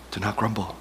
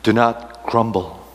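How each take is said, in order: First: Much softer gentle repeat; quiet repeat. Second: Said in the usual way. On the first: Pretend. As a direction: say it again, softly. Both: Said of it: "And Jesus said to them".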